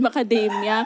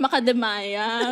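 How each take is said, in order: First: The word ends with a short 'mia' sound. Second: The word ends with a drawn-out 'maya' sound. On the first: This is how others say it. The speaker calls it right. "sabi ng director natin" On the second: This is how the speaker said it as a teenager. The speaker calls it wrong. "hindi ko alam kung paano sabihin yung macadamia. Sabi ko lang"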